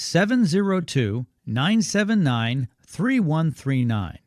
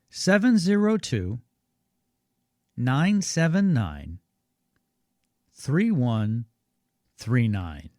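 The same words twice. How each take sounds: First: The number is said at normal pace. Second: The number is said more slowly.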